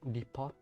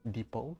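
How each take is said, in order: First: It ends with a 'pot' sound, like teapot. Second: It ends with a 'po' sound, without 'pot'. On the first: "D E P O T pot? Like depot? Just like teapot?" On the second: "the proper pronunciation, I guess"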